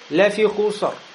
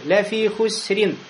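First: The r sound is full and heavy. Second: The r sound is thin and soft. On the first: The speaker calls it wrong. "Нельзя сказать «Лафихусар»" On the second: The speaker calls it right. "«ро» тоже будет мягкой"

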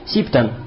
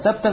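First: The first syllable has the vowel i. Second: The first syllable has the vowel a. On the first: "Бикасри син ва фатхиха" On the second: "Бикасри син ва фатхиха"

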